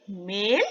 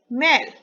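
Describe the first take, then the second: First: मेल with a close e vowel, lower. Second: मैल with an open ai vowel, louder. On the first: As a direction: model मेल with a tight e. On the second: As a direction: model मैल, opening the vowel. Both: Shown as a demonstration. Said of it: "उच्चारण पर ध्यान देंगे".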